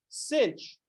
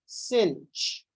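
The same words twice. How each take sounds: First: "cinch" said high and soft, ch at the end; a mock "cinch" for sinh. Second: "cinch" said like the word cinch, with ch. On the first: The teacher imitating people who say "cinch". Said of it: "people that are like all kosh". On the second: Retold or imitated. The teacher mocking people who say "cinch". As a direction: pronounce sinh as "cinch". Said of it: "they pronounce this".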